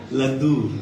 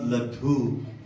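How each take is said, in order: First: The first vowel is kept very short. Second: The first vowel is drawn out long. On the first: The speaker calls it right. "very sh- small O" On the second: The speaker calls it wrong. "the word is not laddu"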